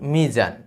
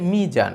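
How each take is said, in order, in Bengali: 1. মাঝের ব্যঞ্জনটি একটি গুঞ্জনময় z ধ্বনি। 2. মাঝের ব্যঞ্জনটি একটি j ধ্বনি। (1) "মিজান শব্দটার জ এর উচ্চারণ জ" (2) "ফলে উচ্চারণ হয়ে যায় মিজান"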